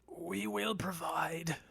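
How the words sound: It is said in the character's voice.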